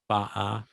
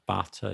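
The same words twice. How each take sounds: First: The middle t becomes a glottal stop. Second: The middle t is clearly pronounced. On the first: "glottal stops" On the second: "Instead of butter"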